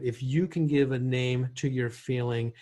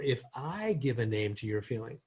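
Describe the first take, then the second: First: YOU picked out as the one naming; stress on YOU. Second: I punched as the contrast; stress on I. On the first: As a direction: lean on the word YOU. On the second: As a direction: lift the word I above the rest. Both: Shown as a demonstration. Contrasts who names the feeling.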